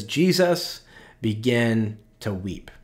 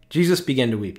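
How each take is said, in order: First: Reading scripture slowly and solemnly; slow reverent reading. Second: Said in the usual way. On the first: Shown as a demonstration. Pastor reads the shortest verse to the congregation, slow and reverent. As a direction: dwell on each word of the verse. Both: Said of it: "It says".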